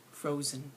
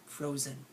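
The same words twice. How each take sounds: The two takes are said the same way.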